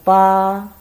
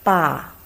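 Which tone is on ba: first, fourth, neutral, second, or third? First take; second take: first; fourth. First: It is said with the first tone. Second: It is said with the fourth tone. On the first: "first tongue" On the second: "Fourth tongue"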